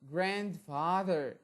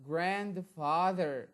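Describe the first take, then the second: No difference in how they are said.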